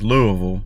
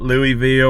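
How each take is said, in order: First: It is said the local Kentucky way. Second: It is said a non-local way. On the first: The speaker calls it right. "that's how we say it down here in Kentucky" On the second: The speaker calls it wrong. "not Louisville"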